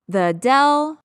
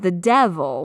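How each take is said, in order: First: The V sound in the middle is dropped. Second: The V sound in the middle is pronounced.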